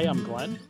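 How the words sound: The voice rises at the end like a question. It sounds like a question. The speaker calls it wrong. "I don't sound like I'm asking a question"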